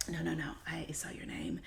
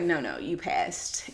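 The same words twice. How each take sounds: First: Soft unvoiced whisper of a reassuring manager. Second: Said in the usual way. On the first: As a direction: breathe it out in a hushed whisper. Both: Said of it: "I was just whispering just now".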